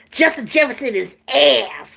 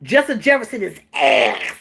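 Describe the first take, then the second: First: Lightly voiced coach, deadpan; flat coach impression. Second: Deadpan coach, no head movement; flat, stiff imitation of the coach; stiff-necked delivery. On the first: Mimicking the coach's blunt press conference line. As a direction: say it dead flat like he did. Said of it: "That's how he said it". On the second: Imitating the coach saying it with no neck. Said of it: "He said it just like that, with no neck".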